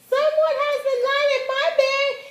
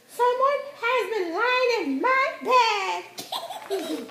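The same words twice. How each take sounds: First: It is said in a small, high voice. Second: It is said in a medium-pitched voice.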